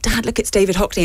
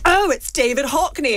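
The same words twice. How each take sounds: First: Said in the usual way. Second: Slow, higher braying posh man; posh booming dad voice. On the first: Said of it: "so I was like". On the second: Retold or imitated. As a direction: bray it out like a posh father. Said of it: "my dad has a very booming, braying, posh man voice".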